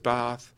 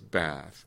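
First: The word is said in an RP accent. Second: The word is said in an American accent. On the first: "the bath words that RP speakers do as" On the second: "American speakers, let's say, do as"

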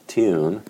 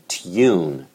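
First: The y glide is weak and vowel-like. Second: The y glide is strong and consonant-like. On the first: "what we'd represent with the kit vowel" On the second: "very strong tune"

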